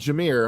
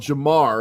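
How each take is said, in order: First: The second syllable sounds like 'meer'. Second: The second syllable sounds like 'mar'. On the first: The speaker calls it right. "instead of Jameer" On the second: The speaker calls it wrong. "if you're going to call the highest paid running back in the N F L Jamar"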